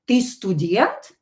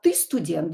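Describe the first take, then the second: First: The intonation is that of a question. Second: The intonation is that of a plain statement. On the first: It asks whether the listener is a student. "you have to change your intonation as well for people to understand that it's a question" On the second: It states that the listener is a student. "it can be a statement without the question mark"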